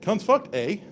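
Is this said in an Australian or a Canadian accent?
Canadian. It is said in a Canadian accent with more inflection. "add a little uh, vertical inflection ... Straight up Canadian"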